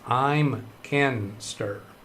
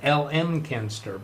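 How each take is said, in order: First: The start is spoken as the single word I'm. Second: The start is spoken as two separate letters. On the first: The speaker calls it right. "but it's" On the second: The speaker calls it wrong. "I have been forever and a day pronouncing that as"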